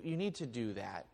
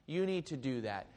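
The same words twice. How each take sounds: First: "need" leaned on, the rest quieter; stress on need. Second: "You" leaned on at the start; stress on you. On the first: Pastor urging his congregation, hitting "need". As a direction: press the word "need" in "you need to do that". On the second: Pastor repeating the charge, now stressing "You". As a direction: point at them with "You" in "You need to do that". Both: Shown as a demonstration.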